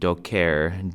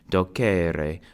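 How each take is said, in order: First: The final vowel is silent. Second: The final vowel is clearly pronounced. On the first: The speaker calls it wrong. "pronounce it like an English word, where the last C is silent" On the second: The speaker calls it right. "This final E in infinitives is pronounced E"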